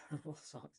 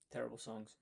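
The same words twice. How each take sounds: First: Laughing. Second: Said in the usual way. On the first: Real, not acted.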